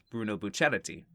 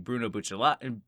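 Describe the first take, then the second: First: The surname is said with an R sound. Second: The surname is said with an L sound. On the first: "they got the more R pronunciation" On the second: "it used to be Bruno Bucciolati, Bucciolati with the L's"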